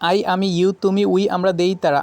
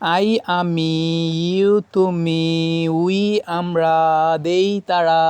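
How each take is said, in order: First: The phrase is said quickly in one breath. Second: The phrase is said slowly in one breath. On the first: "দম ছাড়া যাবে না, just একদমই" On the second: "আমি একটা slow মোশনে একটু দেখাচ্ছি"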